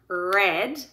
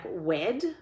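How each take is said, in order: First: The word starts with an r sound. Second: The word starts with a w sound. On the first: The speaker calls it right. "if they're saying red" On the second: The speaker calls it wrong. "they're saying it like wed"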